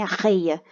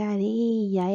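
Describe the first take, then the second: First: "Arreia" with a throaty strong R in place of a tap; wrong strong R. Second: Slow "areia" with a lightly tapped R; weak R. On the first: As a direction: mispronounce "Arreia" with a hard, h-like R. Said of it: "R fraco, né?". ("Arreia" com R forte, errado) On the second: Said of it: "R fraco". ("areia" devagar, com R fraco) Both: Shown as a demonstration.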